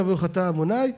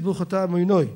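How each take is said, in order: First: עמוני with an open "ay" ending. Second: עמינוי with an "oy" ending. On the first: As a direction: say עמוני ending in "nay", not "noy". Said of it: "מי שאומר". (עמוני בהגייה ספרדית, בסיומת "נַי") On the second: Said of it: "צריכים כולנו לשת-, לשנות ולהגיד". (עמינוי בהגייה אשכנזית, בסיומת "וֹי") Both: Shown as a demonstration.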